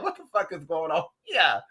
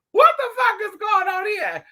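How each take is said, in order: First: Said in the usual way. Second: Much higher, louder shocked yell; mock outraged shout. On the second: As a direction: repeat it as a disbelieving scream. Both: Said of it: "I said".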